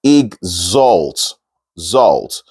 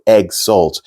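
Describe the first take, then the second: First: "Exalt" as ig-zolt, starting on a short i; correct oral pronunciation. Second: "exalt" with an open "egg" first syllable; pronounced as spelled. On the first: Teacher modelling the word, "Exalt" said ig-zolt. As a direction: say "Exalt" with ig, then a buzzed z in "Zalt". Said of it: "And then you have the Z". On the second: Teacher showing face-value reading, "exalt" said egg-zolt. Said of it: "If you pronounce it on the face value". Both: Shown as a demonstration.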